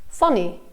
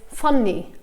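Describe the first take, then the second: No difference in how they are said.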